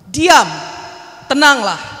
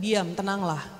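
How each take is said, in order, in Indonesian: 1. Diucapkan dengan tajam dan tegas. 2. Diucapkan dengan lembut dan pelan. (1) "Kalau hardik angin"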